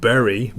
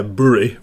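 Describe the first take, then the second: First: Said in the usual way. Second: Bury said with the vowel of put, BUH-ree; local pronunciation. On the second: Shown as a demonstration. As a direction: local Manchester way: Bury as BOO-ree, short oo. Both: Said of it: "or as we pronounce it there".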